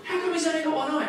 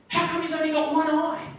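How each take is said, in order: First: High, loud alarmed question; new dad in a panic asking the doctor, high and loud; panicked blurt. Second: Panicked blurt. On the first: Repeats the panicked line. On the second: Panicked dad blurts to doctor. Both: Retold or imitated.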